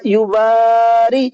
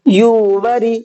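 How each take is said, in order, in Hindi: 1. दूसरा अक्षर खींचा जाता है, तीसरा छोटा है। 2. दूसरा अक्षर छोटा है, तीसरा खींचा जाता है। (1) "ये भी गलत, यहां पर रा नहीं खींचा" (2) "गलत, वाव नहीं खींचा"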